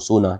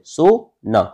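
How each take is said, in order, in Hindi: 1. यह बिना विराम के एक शब्द की तरह बोला जाता है। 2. दोनों हिस्सों के बीच विराम है। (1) "सोने वाली जो क्रिया होती है ना, उसकी बात कर रहा हूँ" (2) "यदि बीच में विराम दूंगा तो क्या हो जाएगा, सो मत"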